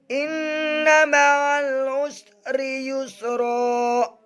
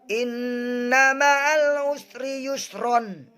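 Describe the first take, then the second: First: The last word ends in a long vowel. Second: The last word ends with an 'n' sound. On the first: The reader stops at this point. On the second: The reading continues without stopping.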